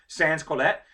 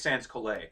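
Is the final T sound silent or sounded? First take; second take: sounded; silent. First: The final T sound is pronounced. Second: The final T sound is left silent. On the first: "I'm probably mispronouncing this" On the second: "the T's may be silent"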